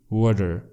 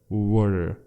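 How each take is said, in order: First: The t is a soft d-like flap. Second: The t is a soft d-like flap.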